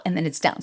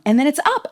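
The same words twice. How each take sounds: First: Pitch going down. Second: Pitch going up. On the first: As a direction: let "down" drop low. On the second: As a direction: swing high and loud on "up". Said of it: "it starts going down". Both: Shown as a demonstration.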